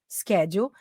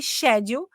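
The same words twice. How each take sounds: First: "schedule" with SK at the start; hard K in "schedule", American style; American pronunciation. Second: "schedule" with SH at the start; British pronunciation. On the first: Teacher modelling American English for learners, SK in "schedule". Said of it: "inglês americano". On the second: Teacher contrasting it with American English, British SH in "schedule". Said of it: "é a pronúncia britânica". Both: Shown as a demonstration.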